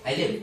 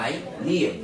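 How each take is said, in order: First: Live said fast with a short i; quick, brief live for pupils to copy. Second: Live with the i held for half a beat; brief stretch. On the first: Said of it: "খুব দ্রুত করবা". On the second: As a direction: draw out live slightly, under a second. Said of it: "আধা আলিফ টান হবে". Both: Shown as a demonstration.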